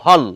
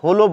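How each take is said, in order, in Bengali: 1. শব্দটি শুধু l ব্যঞ্জনে শেষ হয়েছে। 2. শব্দটির শেষে একটি যুক্ত o স্বরধ্বনি আছে। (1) "কেননা এই শেষের অ ধ্বনিটি এর সঙ্গে আসবে না উচ্চারণে" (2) "আমরা এটিকে হলো বলবো না"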